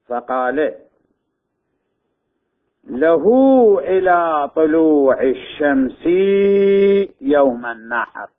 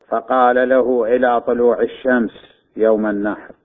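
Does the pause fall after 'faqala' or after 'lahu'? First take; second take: after faqala; after lahu. First: The pause comes after the word faqala. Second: The pause comes after the word lahu. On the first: He has time until sunrise on the day of sacrifice. The speaker calls it right. "النقطتين شارحة تنحط وين تنحط؟ ورا قال قبل له" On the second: He told him: until sunrise on the day of sacrifice. The speaker calls it wrong. "قد تقرأ بالشكل المذكور يعني فقال له، ثم نقطتين شارحة"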